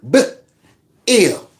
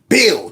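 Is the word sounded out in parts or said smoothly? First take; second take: in parts; smoothly. First: The word is broken into separate sounds. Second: The word is said smoothly in one piece.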